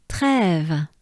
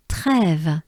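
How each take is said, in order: Both takes have the same delivery.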